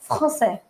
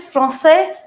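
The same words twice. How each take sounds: First: The r is a throaty kh-like sound. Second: The r is an English-like r, not throaty. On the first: "but you say français" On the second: "you don't say français"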